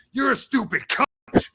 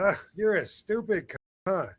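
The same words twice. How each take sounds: First: Loud, high hammered insult; exaggerated hostile yell; mock angry. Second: Offhand, slightly raised playful jab; light insult tossed off, no bite; casual teasing. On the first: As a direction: spit it out like a real attack. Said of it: "But not like". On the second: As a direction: say it like ribbing a friend. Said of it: "I'm saying it just like that". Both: Shown as a demonstration.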